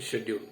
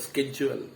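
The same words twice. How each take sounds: First: The word is said the British way. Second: The word is said the American way. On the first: "U K is all are pronouncing schedule" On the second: "American English it is pronounced as schedule"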